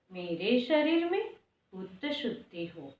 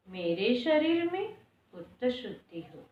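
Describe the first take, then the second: No difference in how they are said.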